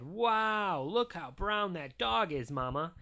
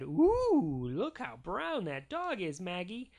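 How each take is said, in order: First: Lightly voiced dad with a big, raised "Wow"; a touch of fatherly wonder, slowly marvelling; amazed Daddy. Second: Lightly voiced mom with a high, drawn-out "Ooh"; a touch of motherly wonder for a baby; cooing Mama. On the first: Daddy admiring the dog to Mama, lightly voiced amazement. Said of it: "And Daddy said". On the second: Mama showing baby Maggie the dog, lightly cooing. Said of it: "And Mama said". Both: A narrator's reading.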